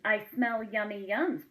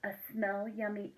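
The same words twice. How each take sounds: First: A touch of a greedy sniffing badger on yums; lightly voiced hungry badger; badger sniffing food. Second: Said in the usual way.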